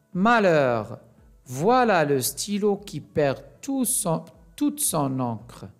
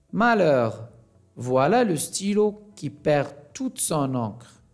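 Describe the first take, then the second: The two takes are said the same way.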